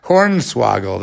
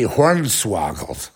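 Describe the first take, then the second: First: Hornswoggled slowed down and relished; savoring the word. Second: Said in the usual way. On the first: Shown as a demonstration. Repeating his favorite new word, savoring it slowly. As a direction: roll out Hornswoggled slowly, enjoying it. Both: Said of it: "I like that one".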